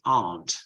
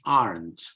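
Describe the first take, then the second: First: It is said with a British accent. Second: It is said with an American accent. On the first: "In British English" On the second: "In American English"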